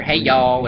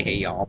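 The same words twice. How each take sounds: First: Said in the usual way. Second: Soft, drawled Southern "Hey y'all"; exaggerated Southern accent. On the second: Shown as a demonstration. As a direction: lay the Southern accent on thick. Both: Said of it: "over-exaggerating my southern accent".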